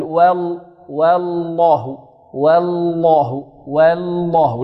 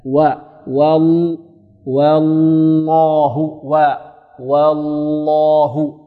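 First: "والله" بواو ولام أولى مرققتين غلطًا; مدّ لام "والله" رقيقة ثم فخّم آخرها; ترقيق اللام الأولى. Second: "والله" ببطء شديد، واو رقيقة ولام غليظة; غلّظ اللام المشددة كلها في "والله" ومدّها; ترقيق الواو وتغليظ اللام. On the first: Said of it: "يرقق معه اللام الأولى". (رقق الواو واللام الساكنة في "والله") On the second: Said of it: "ترقق الواو وتغلظ ماذا؟". (رقق واو "والله" وحدها ثم املأ الفم باللام) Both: Shown as a demonstration.

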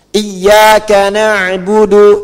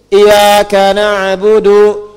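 First: IYYAKA with a held double y, chanted loud; tasydid pada iyyaka. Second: "iyyaka" with a single light y, as i-ya-ka; without tasydid. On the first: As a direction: recite "Iyyaka" leaning firmly on a doubled y. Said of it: "kalau iya ka, hanya kepada engkau". ("Iyyaka" dilantunkan dengan ya bertasydid) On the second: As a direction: chant "iyyaka" slowly without doubling the y. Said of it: "kalau Anda tidak pakai tasydid". ("iyyaka" tanpa tasydid, ya tidak ditekan) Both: Shown as a demonstration.

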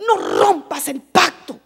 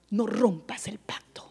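First: Said in the usual way. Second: Whisper. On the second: Real, not acted. Whispered repeat of warning.

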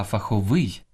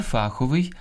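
First: Фаховий stressed on final ВИЙ; end-stressed фаховий; stress on last syllable. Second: Фаховий stressed on ФА; wrong first-syllable stress. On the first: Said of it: "Слід казати". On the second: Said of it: "найчастіше неправильно наголошуєте". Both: Shown as a demonstration.

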